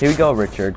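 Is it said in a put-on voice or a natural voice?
natural voice. It is said in a natural voice.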